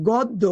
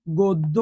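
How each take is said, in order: First: Said in the usual way. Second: গদ্য said lower as god-do, with a doubled d; demonstrated pronunciation. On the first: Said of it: "এটার উচ্চারণ কি বলতো?". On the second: Shown as a demonstration. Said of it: "এটার উচ্চারণ হচ্ছে".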